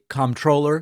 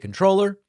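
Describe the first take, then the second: First: The word begins with a 'comp' sound. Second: The word begins with a plain 'con' sound. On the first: "or you can say comptroller" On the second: "You can say controller"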